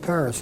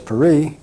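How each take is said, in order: First: Paris is pronounced the English way. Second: Paris is pronounced the French way. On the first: "we call it Paris" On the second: "the French call Paris Paris"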